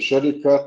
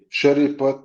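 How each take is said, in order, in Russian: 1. Перед конечным 'at' слышится звук k. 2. Перед конечным 'at' слышится звук p. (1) "на русский лад" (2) "на чеченский"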